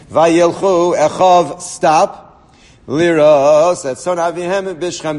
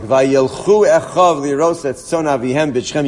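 First: There is a clear pause after Echav. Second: It is read straight through without a pause.

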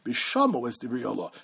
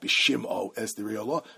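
First: The first word has an 'ah' vowel after 'sh'. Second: The first word has an 'ee' vowel after 'sh'. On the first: The speaker calls it right. "Kemo shato kore bishamo es divrei halah" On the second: The speaker calls it wrong. "not bishimo es divrei halah"

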